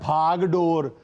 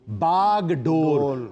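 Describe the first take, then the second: First: Starts with aspirated bh and ends in dor. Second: Starts with plain b and ends in dor. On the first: The speaker calls it wrong. "कभी कहा जाता है भाग डोर" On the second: The speaker calls it right. "ये लफ्ज है बागडोर, ना भाग है ना दौड़ है इसमें"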